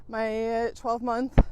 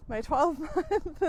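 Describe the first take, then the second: First: Breathless, slow, gasping between words; out of breath. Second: Retry the phrase through a laugh. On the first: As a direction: struggle for air mid-sentence. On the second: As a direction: laugh breaks into the words. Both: Real, not acted. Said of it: "God, I'm out of breath today".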